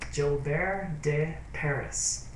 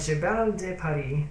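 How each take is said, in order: First: The name is said with an American accent. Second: The name is said with a French accent. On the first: "like an American English speaking person" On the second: "I'm used to saying in French"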